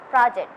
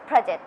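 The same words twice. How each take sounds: First: "project" in a British accent, open "ah" in the first syllable. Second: "project" in an American accent, rounded "aw" in the first syllable. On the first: Student showing an interviewer both accents, British "project". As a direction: say "project" British-style, like "prah-ject". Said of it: "In British accent, it's project". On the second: Student showing an interviewer both accents, American "project". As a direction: say "project" American-style, like "praw-ject". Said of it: "In American accent, it's project". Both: Shown as a demonstration.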